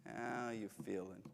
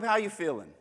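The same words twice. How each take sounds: First: A much softer how you feeling; softer, gentle ask. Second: Said in the usual way. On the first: Shown as a demonstration. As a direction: ask it quietly, tenderly. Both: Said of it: "tone of voice matters".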